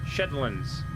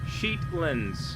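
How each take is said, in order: First: The first vowel is short, as in 'shed'. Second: The first vowel is long, as in 'sheet'. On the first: The speaker calls it right. "Sheet like bike shed" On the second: The speaker calls it wrong. "I feel like I'm mispronouncing that horribly"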